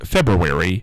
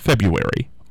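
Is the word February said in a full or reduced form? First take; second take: full; reduced. First: The word is said in its full, careful form. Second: The word is said in a reduced, everyday form. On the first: The speaker calls it right. "that's February" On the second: The speaker calls it wrong. "not February. Although, we've all broken down now, and we all say February"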